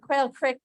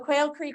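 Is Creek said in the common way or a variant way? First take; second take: variant; common. First: Creek is pronounced in a different, variant way. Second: Creek is pronounced the common, standard way.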